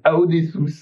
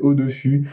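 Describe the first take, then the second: First: The name begins with a separate 'a-o' sound. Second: The name begins with a plain French 'o' sound. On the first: "il y en a qui disent Aodessus, ah ça ce qui cette prononciation me me flingue" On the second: "c'est un nom français"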